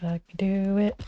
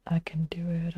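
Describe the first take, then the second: First: Said in the usual way. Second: I can do it whispered, no voice; whispered pep talk. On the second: Real, not acted. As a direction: whisper it under the breath. Self pep talk, whisper take.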